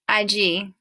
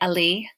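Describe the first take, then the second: First: The middle consonant is a Y sound. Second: The middle consonant is an L sound. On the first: The speaker calls it right. "The two L's together make a Y sound" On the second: The speaker calls it wrong. "please don't say ali"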